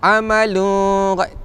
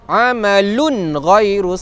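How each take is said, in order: First: The n is nasalized into the next word. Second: The n is pronounced clearly, without nasalization. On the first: The speaker calls it wrong. "dia nak dengungkan bacaan" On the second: The speaker calls it right. "Tak, dia izhar"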